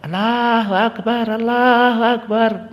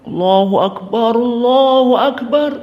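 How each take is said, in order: First: It is said in a small, weak voice. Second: It is said in a loud, strong voice.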